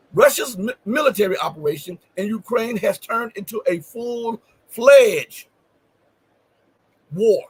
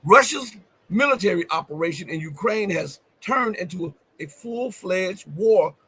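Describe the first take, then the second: First: Louder, with a held pause before war; pause, then land hard on war; emphatic reread. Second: Reads the quote slowly, leaning on full-fledged war; slow stressed reading. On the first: Host rereading the headline to drive it home, emphatic. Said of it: "why did I put emphasis on that". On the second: Host reading the Kremlin quote to viewers, deliberate and slow. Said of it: "why did I emphasize that". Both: Shown as a demonstration.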